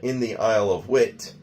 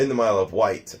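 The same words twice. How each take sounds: First: The place name is said in a non-British way. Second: The place name is said the British way.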